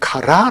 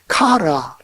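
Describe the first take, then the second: First: The stress is on the last syllable. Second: The stress is on the first syllable. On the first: This is the original form before stress retraction. "원래는" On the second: The stress has moved back before the next stressed word. "카라, 라일라로 되었습니다"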